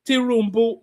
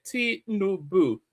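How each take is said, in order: First: Tinubu said as Tirumbu, with an r sound added; mocking mispronunciation. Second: Tinubu slowly, three clear syllables ti-nu-bu; correct pronunciation. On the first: Commentator mocking protester's wrong pronunciation. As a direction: mimic the wrong version. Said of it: "He cannot even pronounce". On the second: Shown as a demonstration. Commentator demonstrating the correct name slowly. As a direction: spell it out slowly. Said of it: "How many syllables are there?".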